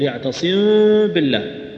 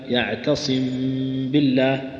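First: The m is said with the lips left open. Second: The m is lightly closed with a soft nasal hum. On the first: The speaker calls it wrong. "فيفتح شفتيه" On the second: The speaker calls it right. "فأنت تدغمها بدون تشديد"

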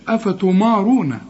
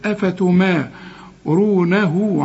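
First: The m sound is heavy and thick. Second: The m sound is light and thin. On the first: The speaker calls it wrong. "ما تقولش أفتمارونة" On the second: The speaker calls it right. "الميم أنا قلت لك في القرآن كلها مرققة"

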